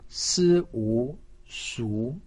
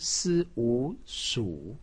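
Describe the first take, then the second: First: The pitch rises from middle to high. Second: The pitch dips low then rises. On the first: "二声" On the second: "三声"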